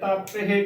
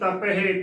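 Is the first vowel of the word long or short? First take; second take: long; short. First: The first vowel is long, like taa. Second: The first vowel is short, like ta. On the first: The speaker calls it right. "ਤੱਤੇ ਨੂੰ ਕੰਨਾ ਤਾ ... ਤਪਹਿ ਬਿਲਕੁਲ ਸਹੀ ਉਚਾਰਨ ਹੈ" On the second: The speaker calls it wrong. "ਨਾ ਕਿ ਤਪਹਿ ਤੱਤਾ ਮੁਕਤਾ ... ਗਲਤ ਉਚਾਰਨ ਹੋਵੇਗਾ"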